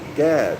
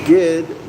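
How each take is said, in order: First: The middle vowel is an A sound. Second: The middle vowel is an I sound. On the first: "G A D" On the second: "G I D"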